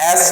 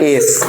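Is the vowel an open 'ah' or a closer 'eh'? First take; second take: ah; eh. First: The vowel is open, like 'ah'. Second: The vowel is closer, like 'eh'. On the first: It sounds like a rude word. The speaker calls it wrong. "मुंह खोल के नहीं, एस नहीं" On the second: It names the playing card. The speaker calls it right. "मुंह बंद करके बोलना"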